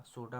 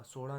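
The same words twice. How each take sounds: First: सोडा with hard, unflapped ड; correct pronunciation. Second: सोडा with flapped ड़ in the middle; wrong pronunciation. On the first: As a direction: say सोडा as "soda", firm d stop. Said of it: "होता है". (सोडा में सख्त ड बोलें) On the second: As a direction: say सोडा as "sora", tongue flapped. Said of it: "नहीं होगा". (सोडा में ड की जगह ड़ बोलें) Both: Shown as a demonstration.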